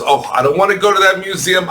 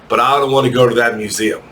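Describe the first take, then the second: First: Higher, fast, hammed-up dread of the noisy museum; mock dread. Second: Said in the usual way. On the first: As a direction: rattle it off in mock horror. Teacher repeats complaint, exaggerated.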